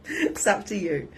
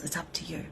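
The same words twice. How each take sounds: First: Laughing repeat; amused repeat. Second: Much softer throwaway line; offhand aside. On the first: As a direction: laugh as you say it again. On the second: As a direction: toss it off lightly. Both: Real, not acted.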